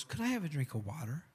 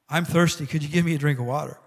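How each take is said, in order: First: Soft, gentle request; softly asking for a drink; quiet ask. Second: Called out loud, pushing the request; loud thirsty request; loud plea for water. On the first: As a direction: ask for the water quietly, almost under breath. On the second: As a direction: belt out the ask for a drink. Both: Acted. Jesus asks woman for water.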